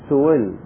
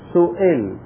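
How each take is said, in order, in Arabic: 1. تُخفَّف الهمزة نحو صوت الواو. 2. تُنطق الهمزة كاملة وواضحة. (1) "بين الهمزة وبين الواو" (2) "نظهر الهمزة إظهارا تاما"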